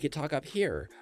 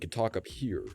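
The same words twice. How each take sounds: First: The voice resonates highest, in the head. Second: The voice resonates low in the upper chest. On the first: "which is where it resonates in your head" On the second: "which is the upper um, torso, like part of your torso, where your voice resonates there"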